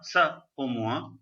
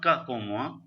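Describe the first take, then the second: First: The first word begins with an S sound. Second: The first word begins with a K sound. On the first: The speaker calls it right. "with the cedilla it is sa" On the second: The speaker calls it wrong. "It is not ka pomua"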